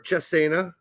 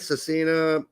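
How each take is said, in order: First: The name is said with an Italian-style pronunciation. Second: The name is said with an English-style pronunciation.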